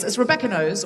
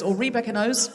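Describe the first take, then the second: First: Rebecca with a schwa, "ruh-BEK-uh"; Rebecca said one way. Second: Rebecca with a long first vowel, "ree-BEK-uh"; Rebecca said the other way. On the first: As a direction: say "Rebecca" as ruh-BEK-uh, short first vowel. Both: Shown as a demonstration. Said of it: "which way?".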